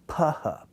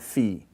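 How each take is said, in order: First: It starts with a p plus a puff of air. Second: It starts with an f sound. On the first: This is how it was pronounced in New Testament times. The speaker calls it right. "the unvoiced p labial with aspiration" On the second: This is the traditional learned pronunciation. The speaker calls it wrong. "this is traditionally how we learn they're pronounced"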